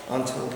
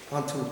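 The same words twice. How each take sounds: The two takes are said the same way.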